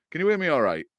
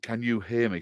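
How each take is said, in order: First: Quick Hull accent, "hear me" run into "'ear me"; strong Hull accent, higher and falling; broad Hull accent. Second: "hear" said carefully with its H sounded; clearer pronunciation. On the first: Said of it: "my whole accent is terrible". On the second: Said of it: "Sorry, my whole accent is terrible". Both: Real, not acted.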